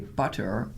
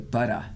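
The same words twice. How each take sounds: First: It is said in a North American accent. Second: It is said in a European-style accent. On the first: This is how Canadians and Americans say it. "we say butter" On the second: This is how Europeans and others say it. "they say butter"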